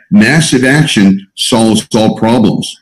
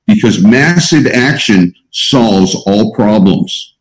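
First: "Massive" stressed, said slowly and firmly; slow emphatic repeat. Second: Slow, weighty delivery of the motto; slow emphatic maxim. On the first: Coach repeats motto to group, slow and firm. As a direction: hammer the motto home, slow. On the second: Coach to group, stressing "massive", slow. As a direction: lean on "massive" and let it sink in. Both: Shown as a demonstration. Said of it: "I repeat that".

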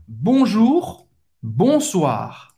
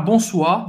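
First: "Bonjour", "bonsoir" com R bem gutural; guttural R. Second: "bonsoir" sem o R final, errado; without R. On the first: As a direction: arranhe o R nos dois. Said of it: "esse R bem gutural no final". ("bonsoir" com R gutural no final) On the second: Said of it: "Não pode falar bonsoir". ("bonsoir" sem R, exemplo do erro) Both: Shown as a demonstration.

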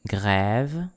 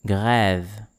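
First: Grève with open "eh", lifting at the end; open è repeat. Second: Grève modelled with an open "eh". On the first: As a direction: say Grève with a rising tune. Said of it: "encore une fois". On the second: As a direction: say Grève carefully for learners. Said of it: "words with this sound". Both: Shown as a demonstration.

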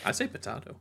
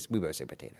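First: "potato" as po-TAH-to; contrary potato pronunciation. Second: "potato" as po-TAY-to, lower; usual potato pronunciation. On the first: Contradicting co-host in banter, "potato" with AH. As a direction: say "potato" with an AH in the middle, softer. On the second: Co-host insisting both say it alike, "potato" with AY. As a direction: say "potato" with an AY in the middle. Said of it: "We both say, we both say potato". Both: Shown as a demonstration.

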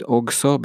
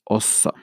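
First: "også" read as written, with a hard g: "og-so"; spelling pronunciation. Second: "også" said "oh-so", silent g; correct Norwegian pronunciation. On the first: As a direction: say "også" letter by letter, g sounded. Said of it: "You write også". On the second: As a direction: drop the g in "også": "å-så". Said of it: "but you pronounce it". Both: Shown as a demonstration.

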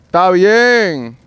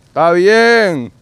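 No difference in how they are said.

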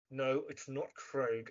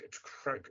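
First: "Craig" with a drawn-out, rounded vowel; mispronounced name. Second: "Craig" short and quiet; corrected name. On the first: Actor correcting his misnamed character, "Craig" said wrongly long. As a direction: slowly quote the wrong "Craig", vowel stretched. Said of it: "every time he says Cra". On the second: Actor correcting his misnamed character, "Craig" said short. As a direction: give the right "Craig", short vowel, softly. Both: Retold or imitated.

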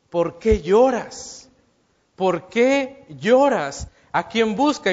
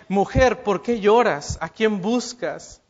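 First: Slow, reproachful "¿Por qué lloras?" with a demanding edge. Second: Tender "Mujer, ¿por qué lloras?", gentle and caring; with more love. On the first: Jesus questioning the weeping Mary, slow and reproachful. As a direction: ask it slowly, like a rebuke. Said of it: "no es el tono que yo le estoy dando, tal vez no le está reclamando". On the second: Jesus gently asking the weeping Mary whom she seeks, tender. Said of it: "con más amor, con más cariño". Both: Shown as a demonstration.

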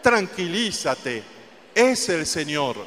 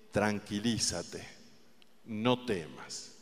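First: Firm, confident command to calm down; firm and assured; with authority. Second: Soft, slow, tender comfort; quiet and slow, like soothing a frightened friend; softly and slowly reassuring; gentle reassurance. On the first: Shown as a demonstration. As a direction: tell them firmly, with authority. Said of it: "Dígaselo con autoridad". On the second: Acted. The Lord speaking to the listener.

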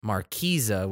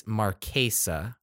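First: Marquesa slow, middle vowel EE like marquee; Marquesa as mar-KEE-za. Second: Marquesa slow, middle vowel AY as in day; careful Marquesa, mar-KAY-sa. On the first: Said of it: "I've heard Marquesa". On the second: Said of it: "I think it's Marquesa". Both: Shown as a demonstration.

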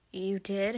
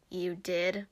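First: Said in the usual way. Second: Doubtful questioning, understated; skeptical echo. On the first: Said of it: "he asked". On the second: A narrator's reading. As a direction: echo it as a mildly disbelieving question. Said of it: "Papyrus echoed skeptically".

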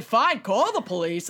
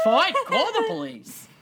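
First: Put-on lightly accented New York retort; attempted New York accent. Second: Higher-pitched, exaggerated New York-via-Boston retort; hammed-up Boston-New York accent. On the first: Driver calling the man's bluff, mild New York accent. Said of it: "I can't do a New York accent". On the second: Host replaying the driver's retort, exaggerated Boston-sounding New York accent. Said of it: "a Boston accent".

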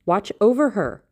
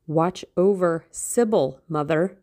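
First: Louder, higher emphatic plea; raised voice, pitched up and urgent; urgent cry. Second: Slow, emphatic appeal; understated cry, drawn out; mild urgent cry. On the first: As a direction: cry it out as an insistent order. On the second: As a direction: urge his mother with weight on each word. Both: A narrator's reading. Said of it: "he cried".

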